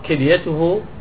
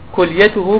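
First: The first vowel is an i sound. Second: The first vowel is a u sound. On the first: The speaker calls it wrong. "الخطأ أن تقول ... بكسر الكاف" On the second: The speaker calls it right. "والصواب أن تقول أصيبت كليته بضم الكاف"

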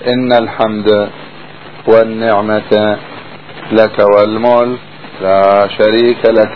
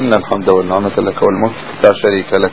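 First: It pauses after walmulk on a vowelled ending. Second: It runs on without pausing after walmulk. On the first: The speaker calls it wrong. "مو تقول هكذا" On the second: The speaker calls it right. "تقول هكذا"

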